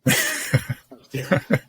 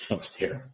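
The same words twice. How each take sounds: First: Laughing through the words, pitched up. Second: Said in the usual way. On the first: Real, not acted. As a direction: laugh it out at yourself. Repeats line, second time laughing.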